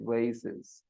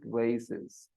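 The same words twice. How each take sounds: First: The word is said with an American pronunciation. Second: The same.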